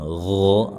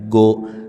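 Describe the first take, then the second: First: It starts with a soft, airy throat sound. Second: It starts with a hard stopped g sound. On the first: The speaker calls it right. "Lebih halus daripada bunyi G dan dia huruf tebal" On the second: The speaker calls it wrong. "jangan dibaca mirip huruf G pada huruf Indonesia"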